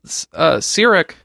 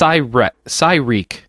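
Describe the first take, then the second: First: The first syllable does not sound like sigh. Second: The first syllable sounds like sigh, then reek. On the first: The speaker calls it wrong. "You said it how you said it wrong" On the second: The speaker calls it right. "So like Psy as in psychic and Reek as in wreak havoc"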